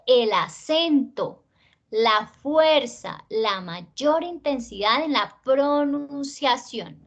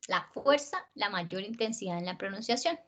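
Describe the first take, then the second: First: "el acento", "la fuerza", "la mayor intensidad" slow and weighty; emphatic stress. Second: "la fuerza, la mayor intensidad" dropping away softly; de-emphasized. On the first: Teacher defining stressed syllables, slow and emphatic. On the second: Teacher defining unstressed syllables, soft and unemphatic. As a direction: let "la mayor intensidad en la pronunciación" sink low and soft. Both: Shown as a demonstration.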